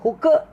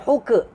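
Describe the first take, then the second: First: The k ends with a bouncing vowel-like release. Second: The k ends with a bouncing vowel-like release.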